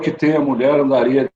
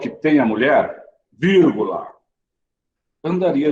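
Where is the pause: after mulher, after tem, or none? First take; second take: none; after mulher. First: It is read straight through without any pause. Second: There is a pause right after mulher. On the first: The sentence is confusing and hard to understand. "a gente leu sem pausa nenhuma" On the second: A man would search hard for a woman if he knew her worth. "vírgula"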